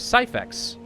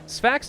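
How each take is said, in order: First: The name is said as two syllables. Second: The name is said as one syllable. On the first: The speaker calls it right. "and now it's Syphax" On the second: The speaker calls it wrong. "I've been saying this wrong"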